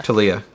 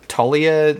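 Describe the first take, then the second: First: "Talia" with a light first syllable and stress on the second, tuh-LEE-uh; "Talia" corrected to tuh-LEE-uh. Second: "Talia" stressed on the first syllable, TAH-lia; "Talia" misread as TAH-lia; wrong stress on Talia. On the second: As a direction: say "Talia" with the weight up front, TAH-lee-uh. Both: Shown as a demonstration. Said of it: "I got the emphasis on the wrong syllable".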